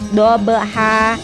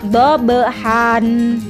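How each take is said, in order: First: The word ends with an open vowel. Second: The word ends with an n sound. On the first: "maka diganti membacanya berubah fathah saja" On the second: "yang sering keluar di dalam Al-Quran yaitu dobehan"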